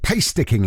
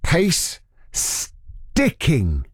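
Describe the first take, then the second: First: It is said at normal speed. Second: It is said slowly.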